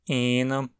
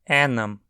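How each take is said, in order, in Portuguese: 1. A primeira vogal é longa. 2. A primeira vogal é curta. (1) "com um E longo" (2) "com um E curto"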